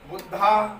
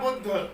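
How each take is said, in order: First: The word ends with an added long 'aa' vowel. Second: The word ends on the final consonant. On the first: The speaker calls it wrong. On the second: The speaker calls it right.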